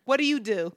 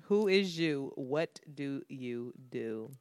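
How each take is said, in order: First: Imitated brisk Philly challenge; most Philly way. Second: Low, quiet Philly recap, drawn out; most Philly way. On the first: Girl challenging [name] on the street, most Philly way. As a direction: fire the question like a Philly local. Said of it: "in the most Philly way". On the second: Retold or imitated. Recalling the girl's challenge to herself, slow Philly way. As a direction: repeat the Philly challenge slowly, under your breath. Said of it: "This is the most Philly shit".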